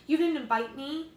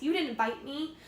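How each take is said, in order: First: Louder, higher mimic of her; mocking. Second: Sing-song mock of her. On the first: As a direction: throw her words back sarcastically. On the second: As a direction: parrot her whiny complaint. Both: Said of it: "he mocks".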